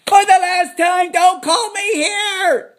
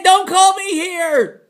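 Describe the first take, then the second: First: For the last time, loud, higher, slow and stretched; exasperated shout. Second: Louder and higher, dragged out slowly; slow angry repeat. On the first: Fed-up host shouting at the caller, very slow and loud. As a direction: bellow it at the end of your patience. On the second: Irritated host repeating a warning slowly, higher and louder. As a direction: spell out each word with annoyance. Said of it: "I said". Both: Acted.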